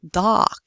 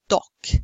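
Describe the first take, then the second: First: It is said in an American accent. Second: It is said in a British accent. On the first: "speakers of American English would go like this" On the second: "Now we're talking about British English"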